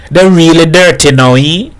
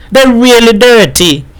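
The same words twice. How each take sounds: First: Raised pitch with questioning end; asking for agreement. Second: High-pitched, emphatic admiration; proud. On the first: Baku shows his wife his clothes, questioning. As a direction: fish for agreement with a lifted ending. Husband seeks wife's agreement. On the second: Wife admires husband's greasy clothes, proud. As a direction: confirm it admiringly on a high note. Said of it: "regarded her husband with pride". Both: A narrator's reading.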